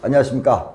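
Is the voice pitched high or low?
high. It is said at a higher, livelier pitch.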